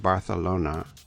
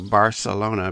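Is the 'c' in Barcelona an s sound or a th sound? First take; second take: th sound; s sound. First: The c is said as a lisped th sound. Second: The c is said as a plain s sound.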